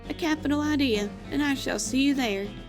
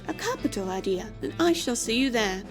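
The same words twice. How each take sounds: First: It is said in the speaker's plain accent. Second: It is said in a put-on British accent.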